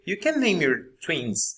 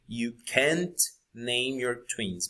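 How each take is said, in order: First: The final t of can't is dropped, spoken fast. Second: The final t of can't is clearly pronounced. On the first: "usually people go very fast and you just hear" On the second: "I am forcing the t sound at the end"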